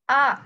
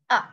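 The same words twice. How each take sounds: First: The pitch rises upward. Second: The pitch falls downward.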